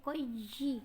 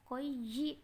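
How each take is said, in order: The two takes are said the same way.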